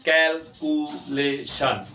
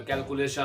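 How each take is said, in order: First: कैलकुलेशन slowly in four separate beats; drawn-out, broken-up कैलकुलेशन; syllable by syllable. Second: Said in the usual way. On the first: Shown as a demonstration. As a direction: pause after each syllable of कैलकुलेशन. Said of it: "ये चार हिस्सों में तकसीम होंगे". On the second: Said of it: "लेकिन इकट्ठा पढ़ेंगे तो".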